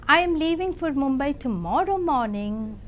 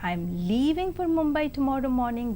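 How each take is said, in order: First: The word tomorrow carries the main stress. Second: The word leaving carries the main stress. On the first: It is tomorrow, not today. "means I am leaving for Mumbai tomorrow and not today" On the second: The person is going, not staying. "that means I am leaving and I am not staying back"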